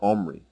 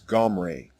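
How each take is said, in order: First: It starts with a vowel and ends in 'ee'. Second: It starts with a throaty consonant and ends in 'ah'. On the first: The speaker calls it wrong. "It is not an E vowel as in the version Omri" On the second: The speaker calls it right. "The correct way to say the king's name is Gomre"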